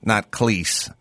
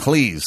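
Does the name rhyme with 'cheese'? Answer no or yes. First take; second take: no; yes. First: The name does not rhyme with cheese. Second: The name rhymes with cheese. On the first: The speaker calls it wrong. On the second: The speaker calls it right. "Cleese, like cheese"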